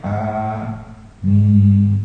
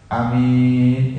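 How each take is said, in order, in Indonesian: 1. Kedua vokalnya dipanjangkan. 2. Hanya salah satu vokalnya yang dipanjangkan. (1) "Yang benar panjang dua-duanya" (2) "artinya orang yang amanah"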